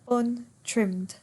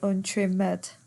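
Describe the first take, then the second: First: The ending adds no extra syllable. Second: The ending is said as an extra syllable. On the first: "Ed doesn't normally give it an extra syllable" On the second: "it might give it an extra syllable"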